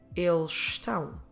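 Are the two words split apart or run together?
run together. The two words are run together.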